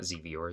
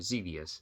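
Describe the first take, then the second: First: The name ends with an 'er' sound. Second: The name ends with an 'us' sound. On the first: The speaker calls it wrong. "not Xevior" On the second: The speaker calls it right.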